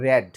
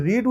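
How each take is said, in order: First: রেড said as "red", short e; past-tense pronunciation. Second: রিড said as "reed", long ee; present-tense pronunciation. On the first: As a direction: pronounce রেড with a short e vowel. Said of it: "এখানে উচ্চারণ করবো রেড". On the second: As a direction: pronounce রিড with an ee vowel. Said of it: "যদি রিড উচ্চারণ করি". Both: Shown as a demonstration.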